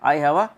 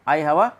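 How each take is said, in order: The two takes are said the same way.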